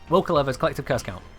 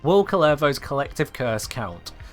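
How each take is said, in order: First: The phrase is spoken quickly. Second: The phrase is spoken at a normal pace.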